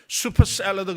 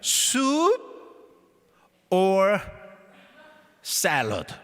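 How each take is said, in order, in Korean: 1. 이 구절은 빠르게 붙여서 말해요. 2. 이 구절은 천천히, 한 단어씩 떼어서 말해요.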